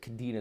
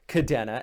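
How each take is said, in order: First: The second vowel sounds like 'ee'. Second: The second vowel sounds like 'eh'. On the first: The speaker calls it wrong. "the E here on Kadena would be an I if you pronounced it" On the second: The speaker calls it right. "it is pronounced Kadena"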